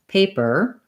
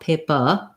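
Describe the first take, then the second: First: The last syllable has a tight R sound. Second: The last syllable ends in a relaxed vowel. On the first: "So in American English" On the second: "British English, some other uh, dialects of English, more"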